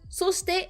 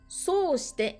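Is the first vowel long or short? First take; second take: short; long. First: The first vowel is short. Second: The first vowel is lengthened. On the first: It is a linking word meaning and then. "c'est juste un petit mot de liaison pour dire et puis" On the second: It means by doing that. "un allongement, et ça change tout"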